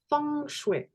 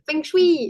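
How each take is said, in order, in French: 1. Ça se prononce à peu près comme 'foung shoué'. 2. Ça suit la prononciation française courante. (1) "F O U N G, S H O U E accent aigu" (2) "l'occidental du"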